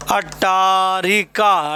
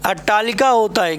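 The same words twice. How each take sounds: First: Slow, drawn-out अट्टारिका with r in the middle; wrong form shown. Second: अट्टालिका said clearly with l in the middle; correct form. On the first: Teacher slowly showing a student's wrong spelling. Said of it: "अट्टारिका नहीं होता भाई मेरे". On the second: Teacher giving the student the correct spelling clearly. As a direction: give the right अट्टालिका firmly, l not r. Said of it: "क्या होता है, अट्टालिका होता है". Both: Shown as a demonstration.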